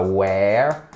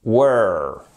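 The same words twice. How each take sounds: First: Drawn-out "where", rhyming with air; wrong vowel demo. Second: "were" as "wur", rhyming with her; low, held "were" with a central vowel; correct vowel. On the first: Teacher repeats what learners must avoid, wrong vowel. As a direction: hold the "air" sound in "where". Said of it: "ici c'est pas where". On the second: Teacher gives learners the right word, careful pronunciation. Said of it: "c'est bien". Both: Shown as a demonstration.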